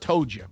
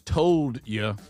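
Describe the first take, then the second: First: It is said in the community's dialect pronunciation. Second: It is said in the standard pronunciation. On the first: This is how the speaker's community talks. "our people said told you, and that's how we talk" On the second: This is the accepted correct form. "I know that it's told you"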